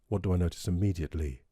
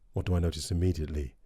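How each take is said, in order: First: The voice sounds warm, clean and clear. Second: The voice sounds thicker, slightly coarse, with sharp highs. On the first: The speaker calls it right. "I notice the warmth down there and the clarity" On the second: The speaker calls it wrong. "perhaps a slight thickening there and t, t, t, an accentuation at the top there"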